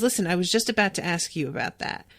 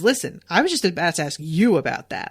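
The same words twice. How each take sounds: First: It is said in a sincere, serious tone. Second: It is said in a teasing, joking tone. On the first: She really was about to ask about it. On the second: She is teasingly asking if the other is doing something stupid.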